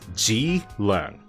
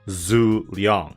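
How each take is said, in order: First: The name is said with Cantonese pronunciation. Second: The name is said with Mandarin pronunciation. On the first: "In Cantonese pronunciation" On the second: "And then in Mandarin"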